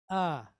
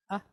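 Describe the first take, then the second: First: "ah" held as an open, drawn-out vowel; long ah. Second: "ah" cut very short. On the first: Teacher repeating the contrast, long "ah". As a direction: draw "ah" out with a falling tone. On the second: Teacher repeating the contrast, short "ah". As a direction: say "ah" as a quick, abrupt vowel. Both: Shown as a demonstration. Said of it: "You hear the difference between the two".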